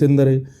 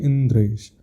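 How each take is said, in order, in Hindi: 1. d और r के बीच एक अतिरिक्त स्वर आता है। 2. d और r एक साथ जुड़कर एक गुच्छा बनाते हैं। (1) "अब कोई बोले" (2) "उसका शुद्ध प्रोनाउंसिएशन होना चाहिए"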